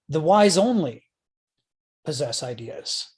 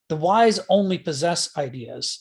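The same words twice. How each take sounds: First: The word wise carries the main stress. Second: The word possess carries the main stress. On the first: Nobody but the wise can hold ideas. "Nobody but the wise can possess ideas" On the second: The wise merely hold ideas rather than being held by them. "is one way to read it"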